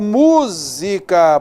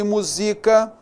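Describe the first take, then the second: First: The stress is on the first syllable. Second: The stress is on the second syllable. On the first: It is the noun meaning music. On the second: It is the verb meaning to set to music.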